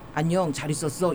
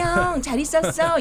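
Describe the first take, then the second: First: It is said on a low, flat pitch. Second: It is said on a high, bright pitch.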